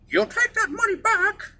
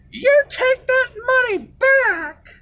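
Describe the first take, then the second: First: Much higher imitation of a shorter mom; a lighter retake of mom's order; mom, second try. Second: Much higher, slow imitation of mom; mock his mother ordering him, drawn out; mom's stern order. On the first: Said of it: "She's a little bit shorter". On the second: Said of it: "So she said".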